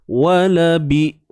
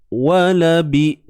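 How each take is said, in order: Both takes have the same delivery.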